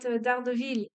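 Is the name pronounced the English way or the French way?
French. The name is pronounced the French way. The speaker calls it wrong. "in French we used to call that D'Ardeville"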